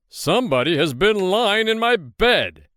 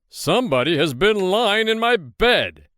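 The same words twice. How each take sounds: First: The voice is big, deep and gruff. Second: The same.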